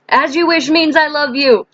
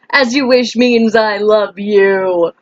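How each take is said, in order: First: High, quick-moving exclamation; playful quote. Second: Slow, stretched-out mock declaration; hammed-up quote. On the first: Pretend. Playful film quote, said twice. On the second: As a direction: draw out every word playfully. Hammed-up repeat of the film quote.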